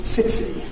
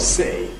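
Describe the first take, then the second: First: Said in posh Cockney with an affricated ts. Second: The t is only a bit of creaky voice. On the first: "posh Cockney is sitsy. So, affricated" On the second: "the broadest Cockney appears to be just creaky voice"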